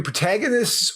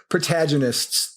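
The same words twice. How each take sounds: First: Protagonists said the Midwestern American way; American pronunciation. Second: Protagonists imitated the Australian way; Australian pronunciation. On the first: Shown as a demonstration. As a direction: offer the American "protagonists" first. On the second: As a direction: contrast with an Australian-style "protagonists". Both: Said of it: "protagonists or protagonists".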